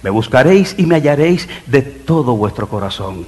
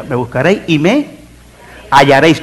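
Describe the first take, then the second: First: Said in the usual way. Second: Suspend on a rising "me", pause, deliver "hallaréis"; pause before HALLARÉIS. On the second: Shown as a demonstration. Preacher makes congregation listen to the verse, pause before "hallaréis".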